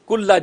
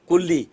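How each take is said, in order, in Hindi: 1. यह शब्द 'ah' स्वर पर खत्म होता है। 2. यह शब्द 'ee' स्वर पर खत्म होता है। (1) "लेकिन आपने अब इसके ऊपर ज़बर पढ़ना है" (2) "कुल्ली के लाम के नीचे ज़ेर है"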